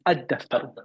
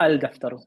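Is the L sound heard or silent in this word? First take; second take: silent; heard. First: The L is silent and the d is doubled. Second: The L is clearly pronounced before the d. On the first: The speaker calls it right. "It's شمسية" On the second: The speaker calls it wrong. "not الدفتر"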